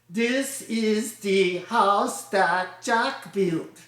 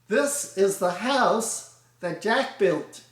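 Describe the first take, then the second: First: Every syllable gets roughly equal emphasis. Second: Weak and strong syllables alternate in a de-dum beat. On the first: The speaker calls it wrong. "The French would emphasize each syllable" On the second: The speaker calls it right. "The words are inflected. De-dum, de-dum"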